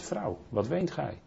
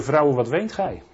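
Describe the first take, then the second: First: Slow and much softer, gently asking; tender, hushed. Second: Said in the usual way. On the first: Acted. Jesus gently asks weeping Maria why she cries, hushed and slow. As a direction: ask her softly, like comforting someone weeping. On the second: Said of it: "same quote repeated, contrasted".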